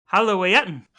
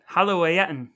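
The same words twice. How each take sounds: First: Halloween said hah-loh-AY-ten, a stumbling go at Arabic; Arabic word Halloween. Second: Halloween repeated slower, hah-loh-AY-ten, carefully sounded out; slowly retry the word Halloween; Arabic word again. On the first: Brother quizzes brother, sounding out the Arabic candy word. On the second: Quizzing his brother, he slowly repeats the Arabic word. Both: Shown as a demonstration. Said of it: "I am undoubtedly pronouncing that wrong".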